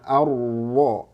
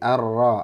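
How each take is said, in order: First: The lips push forward, rounded, on the r. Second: The lips stay unrounded on the heavy r. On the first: "itu memonyongkan bibir" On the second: "nggak boleh memonyongkan bibir ketika huruf tebal"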